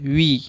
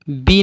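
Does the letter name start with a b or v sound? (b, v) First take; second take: v; b. First: It begins with a v sound. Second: It begins with a b sound. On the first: The speaker calls it right. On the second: The speaker calls it wrong.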